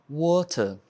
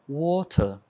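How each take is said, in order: No difference in how they are said.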